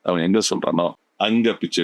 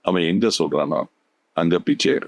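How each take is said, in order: First: The stress falls on the word அங்க. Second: The stress falls on the word எங்க. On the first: "அங்கங்கிறது stress ஆகும்" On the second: "எங்கங்கிற இடத்துல நீங்க stress பண்றீங்க"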